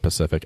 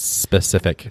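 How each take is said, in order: First: The word begins with a plain 'p' sound. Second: The word begins with an 'sp' sound. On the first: The speaker calls it wrong. "As a kid, that's how I used to say that word" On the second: The speaker calls it right. "It's specific"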